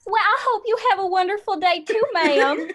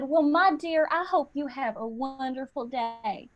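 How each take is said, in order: First: Much higher, hammed-up Southern accent; echoed Southern accent. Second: Put-on cashier's Southern accent, trailing softer; imitated Southern accent. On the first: Customer involuntarily copying the cashier back, hammed-up Southern accent. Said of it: "we just start doing it back to them involuntarily". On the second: Cashier to customer at grocery checkout, imitated Southern accent. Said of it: "had an accent".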